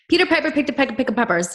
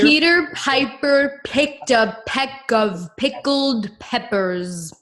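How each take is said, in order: First: It is said fast. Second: It is said very slowly.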